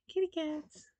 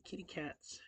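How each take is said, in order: First: Kitty cats said high, in a put-on lilt; light high kitty cats. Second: Said in the usual way. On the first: Shown as a demonstration. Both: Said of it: "testing the voice twice".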